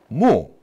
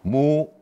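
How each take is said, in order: First: The pitch falls from high to low. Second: The pitch stays level and mid. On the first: "무 이렇게 떨어지게 되죠" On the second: "같은 음가로 평평하게 말을 해요. 그러니까 삼, 삼이 돼요"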